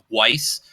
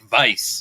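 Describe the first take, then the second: First: The name is said with an English pronunciation. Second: The name is said with a German pronunciation. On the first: The name has been Americanized. The speaker calls it wrong. "there's a lot of people in, in America with the na- last name of of Weiss" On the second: This is the name's original form. The speaker calls it right. "it should be like Weiss"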